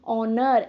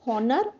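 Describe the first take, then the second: First: The word starts without an h sound. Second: The word starts with an h sound. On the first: The speaker calls it right. "H O ह नहीं होता है" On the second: The speaker calls it wrong. "We should not pronounce this like हॉनर"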